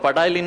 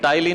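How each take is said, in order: First: The word starts with an audible p sound. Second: The word starts directly with a t sound. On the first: The speaker calls it wrong. "बोलना मत पटाइली" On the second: The speaker calls it right. "इसमें पी silent रहता"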